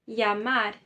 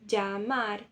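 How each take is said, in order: First: The double L sounds like a y. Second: The double L sounds like dj. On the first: This is the common, general pronunciation. "É como se você arrancasse os dois L's e colocasse a letra I" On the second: This is how it is said in some other countries. "Que é o som de D J"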